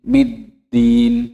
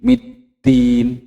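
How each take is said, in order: The two takes are said the same way.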